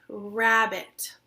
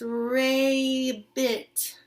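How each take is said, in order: First: The first vowel is the short a sound. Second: The first vowel sounds like the letter name A. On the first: The speaker calls it right. "I'm going to have it say the short vowel sound" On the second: The speaker calls it wrong. "Instead of saying A"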